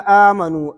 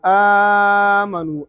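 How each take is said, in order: First: The first vowel is held short. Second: The first vowel is held medium length. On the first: "पहले कसर" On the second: "फिर तवसुत"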